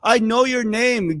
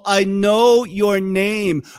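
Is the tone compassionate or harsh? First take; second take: harsh; compassionate. First: It is said in a harsh, scolding tone. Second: It is said in a gentle, compassionate tone.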